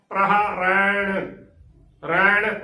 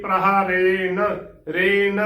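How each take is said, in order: First: ਰੈਣ as "rain" with a curled-tongue ṇ; ਰੈਣ with open vowel and full retroflex ending. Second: ਰੇਨ ending in a plain dental n; ਰੇਨ with closed e and no retroflex. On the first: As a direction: sound the final ਣ of ਰੈਣ fully. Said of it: "ਨਾਣੇ ਦੀ ਪੂਰੀ ਆਵਾਜ਼ ਦੇਣੀ ਹੈ". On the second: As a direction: say ਰੇਨ as "ren", tongue at the teeth. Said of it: "ਰੇਨ ਨੰਨੇ ਦੀ ਆਵਾਜ਼ ਦਿੰਦੇ ਨੇ". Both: Shown as a demonstration.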